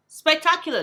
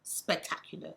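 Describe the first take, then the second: First: "Spectacular" said louder, with a falling finish; emphatic. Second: Said in the usual way. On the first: Shown as a demonstration. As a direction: punch out "Spectacular" with full force.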